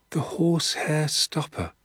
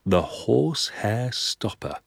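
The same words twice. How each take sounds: First: Put-on higher, awed boy's echo of the name; murmured echo. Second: Said in the usual way. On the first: Danny echoes his father's method name, high and awed. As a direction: repeat it like a wondering child. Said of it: "I murmured". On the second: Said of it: "he said softly".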